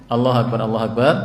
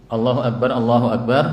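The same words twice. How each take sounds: No difference in how they are said.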